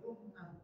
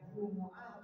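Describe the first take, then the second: First: The word is said with two syllables. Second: The word is said with three syllables. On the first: "boleh boleh dibaca Jumu'ah atau Jum'ah" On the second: "boleh boleh dibaca Jumu'ah atau Jum'ah"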